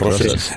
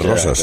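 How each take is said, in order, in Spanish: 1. La vocal final suena como una 'e' clara. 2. La vocal final suena como una 'a'. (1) "le llaman Roses y no es Roses" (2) "En catalán es Rosas"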